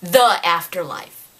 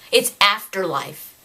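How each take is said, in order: First: The hit hard and set apart before Afterlife; stress on The. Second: Said in the usual way. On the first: Retold or imitated. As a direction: punch the word The in mock quotation. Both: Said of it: "you know what he calls Afterlife".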